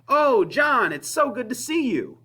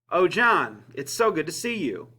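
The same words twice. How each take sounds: First: The greeting sounds genuinely excited and warm. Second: The greeting sounds sarcastic and unenthusiastic. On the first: The speaker is truly glad to see the person. "The subtext of the first one is that I am excited" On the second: The speaker is not glad to see the person. "The subtext of the second one is I'm being sarcastic"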